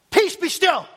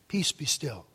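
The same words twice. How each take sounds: First: High, forceful order to the storm; divine command. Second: Low, hushed word to the storm; calm quiet command. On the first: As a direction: command it with raised voice, as God. Voicing God commanding the storm. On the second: Jesus rising from sleep calms storm. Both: Retold or imitated.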